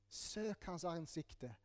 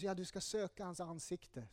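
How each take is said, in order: First: Slow and much softer, lingering on each word; slow, soft urging. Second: Said in the usual way. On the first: Shown as a demonstration. Preacher urging the congregation, slow and soft. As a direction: let the call sink in gently, very slowly. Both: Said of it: "står det i Bibeln".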